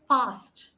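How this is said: It is said in a British accent. "a British accent is past"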